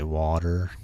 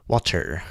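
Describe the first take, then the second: First: The T in the middle is soft and flapped. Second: The T in the middle is crisp and hard. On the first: "like a softer T" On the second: "I've been pronouncing that T hard in water recently"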